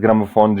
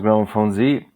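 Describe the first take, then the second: First: The final letter has its Serbian pronunciation. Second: The final letter has its English pronunciation. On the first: This is the original form of the name. "the original pronunciation, like from Serbia" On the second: This is the international form of the name. "Globally, it is pronounced"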